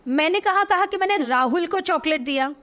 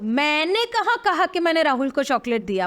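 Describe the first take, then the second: First: The stress is on Rahul. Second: The stress is on मैंने.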